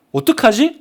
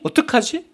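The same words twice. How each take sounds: First: Rising, fretful what-do-I-do; mock worry. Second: Higher and softer, a small anxious plea; anxious fretting. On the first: Preacher voices a believer fearing God missed the train, mock worry. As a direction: ask it like a nervous passenger. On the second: Pretend. Preacher voices a believer fearing God missed the train, higher softer fretting. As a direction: let the worry climb and shrink. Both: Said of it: "하나님이 안 타신 거 아니야?".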